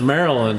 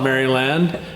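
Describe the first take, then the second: First: The syllables are reduced, unlike the spelling. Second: Every syllable is pronounced as it is spelled. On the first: "We pronounce it Maryland" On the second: "We don't call it Maryland"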